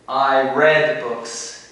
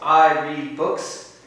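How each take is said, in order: First: Read has its past-tense pronunciation. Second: Read has its present-tense pronunciation. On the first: It happened in the past. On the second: It happens now or habitually.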